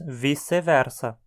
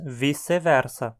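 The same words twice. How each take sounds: First: Portuguese-style, with the c sounding like s. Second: Portuguese-style, with the c sounding like s.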